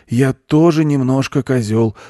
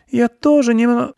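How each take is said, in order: First: Higher, louder confident model phrase; goat teacher. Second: Put-on very high girl's voice, cut short; girl breaking off. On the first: Goat shows children what to say, confidently. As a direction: state it firmly for others to repeat. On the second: Girl tries the goat's phrase, high and breaking off. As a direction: start repeating, then stop mid-word. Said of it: "начала Аня и осеклась". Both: A narrator's reading.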